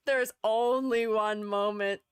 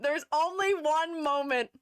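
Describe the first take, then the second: First: Slow down and stretch "only" without lifting it; slow emphatic repeat. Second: "only" stretched and lifted in pitch; slow announcement leaning high on "only"; drawn-out emphasis on "only". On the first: Same line repeated, lower. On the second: Dramatic repetition for emphasis. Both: Real, not acted.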